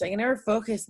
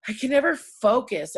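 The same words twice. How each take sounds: First: Said in the usual way. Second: NEVER hit harder and higher, louder; stressed never, exasperated; emphatic. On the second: Real, not acted. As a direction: punch the word never. Repeated line, first take.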